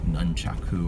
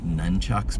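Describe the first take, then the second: First: The word ends with a 'chaku' sound. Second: The word ends with a 'chucks' sound. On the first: "I learned it's like uh, nunchaku or something" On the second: "grew up saying nunchucks"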